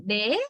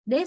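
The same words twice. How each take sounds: First: "they" as "deh", one steady vowel; Sri Lankan vowel. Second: "they" as "dey", gliding towards ee; native diphthong. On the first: Teacher showing how we say it, Sri Lankan vowel. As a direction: hold the vowel of "they" without a glide. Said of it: "we say they". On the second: Teacher showing how they say it, gliding vowel. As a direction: let the vowel of "they" glide at the end. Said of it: "they say they". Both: Shown as a demonstration.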